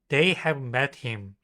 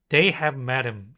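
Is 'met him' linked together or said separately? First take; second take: separately; linked. First: Met and him are said as separate words. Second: Met him blends together, sounding like madam.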